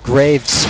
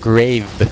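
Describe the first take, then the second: First: The name ends with an s sound. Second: The name ends without an s sound. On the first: The speaker calls it right. "It is Graves with an S" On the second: The speaker calls it wrong. "not Grave"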